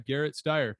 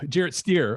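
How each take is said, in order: First: The first name begins with a hard G sound. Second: The first name begins with a J sound. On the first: The speaker calls it wrong. "no, it's uh, everybody. It's it's Jarrett" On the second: The speaker calls it right. "the name's Jarrett"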